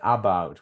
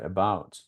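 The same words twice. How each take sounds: First: The first vowel is a full, strong vowel. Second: The first vowel is a weak schwa. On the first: The speaker calls it wrong. "We don't say about" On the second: The speaker calls it right. "we say about. It's a weak sound"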